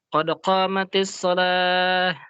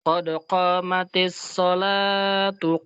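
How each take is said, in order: First: The last word stops short without a final vowel. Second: The last word keeps its final vowel, joined onward. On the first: The phrases are read separately with a stop. "Kalau dipisah" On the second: The two phrases are read as one joined unit. "Kalau mau digabung begitu"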